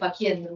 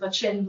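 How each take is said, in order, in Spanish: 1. No se dice con el estilo del latín eclesiástico italiano. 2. Se dice con el estilo del latín eclesiástico italiano. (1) "usted dice faciendum" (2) "en Italia se dice facendum"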